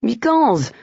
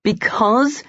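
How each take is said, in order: First: Easy. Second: Because? pitched higher with a questioning rise; disbelieving echo; incredulous. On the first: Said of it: "Jacques said easily". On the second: Colin echoes in disbelief. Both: Acted.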